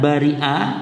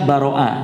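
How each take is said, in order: First: The vowel after the r is 'i'. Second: The vowel after the r is 'a'. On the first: "boleh juga dengan dikasrahkan bari'a" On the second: "Boleh dibaca baro'a sebagaimana wazan fa'ala"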